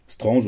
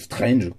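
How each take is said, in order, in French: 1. Le nom se prononce avec des sons français. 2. Le nom se prononce avec des sons anglais. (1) "à l'ancienne façon patron" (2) "à l'anglaise façon Simon"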